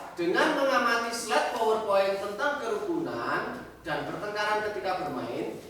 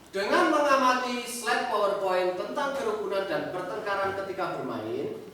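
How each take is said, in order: No difference in how they are said.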